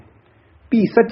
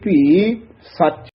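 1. ਦੋਵੇਂ ਸ਼ਬਦ ਬਿਨਾਂ ਰੁਕੇ ਇਕੱਠੇ ਬੋਲੇ ਜਾਂਦੇ ਹਨ। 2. ਸ਼ਬਦਾਂ ਵਿਚਕਾਰ ਥੋੜ੍ਹਾ ਜਿਹਾ ਵਿਰਾਮ ਹੈ। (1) "ਭੀ ਸੱਚ ਨਹੀਂ ਕਹਿਣਾ ਹੈ" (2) "ਥੋੜਾ ਜਿਹਾ ਠਹਿਰਾ ਦੇ ਕੇ ਫੇਰ ਨਖੇਰ ਕੇ ਬੋਲਣਾ ਹੈ"

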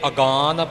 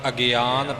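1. ਇਹ ਸ਼ਬਦ ਦੋ ਉਚਾਰਖੰਡਾਂ ਨਾਲ ਬੋਲਿਆ ਜਾਂਦਾ ਹੈ। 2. ਇਹ ਸ਼ਬਦ ਤਿੰਨ ਉਚਾਰਖੰਡਾਂ ਨਾਲ ਬੋਲਿਆ ਜਾਂਦਾ ਹੈ। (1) "ਅਗਾਨ ਪਾਠ ਨਹੀਂ ਕਰਨਾ" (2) "ਅਗਿਆਨ ਪਾਠ ਹੈ"

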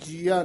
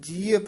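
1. ਇਹ ਸ਼ਬਦ ਲੰਮੀ 'aa' ਧੁਨੀ ਨਾਲ ਖ਼ਤਮ ਹੁੰਦਾ ਹੈ। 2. ਇਹ ਸ਼ਬਦ ਛੋਟੀ 'a' ਧੁਨੀ ਨਾਲ ਖ਼ਤਮ ਹੁੰਦਾ ਹੈ। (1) "ਜੀਆ ਨਹੀਂ ਹੈ" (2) "ਪ੍ਰਭ ਜੀਅ ਪ੍ਰਾਨ ਆਧਾਰੀ"

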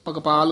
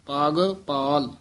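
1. ਦੋਵੇਂ ਹਿੱਸੇ ਮਿਲ ਕੇ ਇੱਕ ਸ਼ਬਦ ਬਣਦੇ ਹਨ। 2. ਦੋਵੇਂ ਹਿੱਸੇ ਵੱਖ-ਵੱਖ ਬੋਲੇ ਜਾਂਦੇ ਹਨ, ਦੋ ਸ਼ਬਦਾਂ ਵਾਂਗ।

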